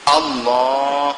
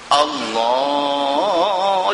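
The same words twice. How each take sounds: First: The voice is broken up and cut short. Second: The voice is stretched out long and melodic. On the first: "sampai terpotong suara" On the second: "Meleret sangat pun tak mau"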